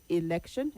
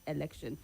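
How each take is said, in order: First: The first vowel is an ee sound. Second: The first vowel is not an ee sound. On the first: The speaker calls it right. "the first letter E takes the I sound" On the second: The speaker calls it wrong. "not election"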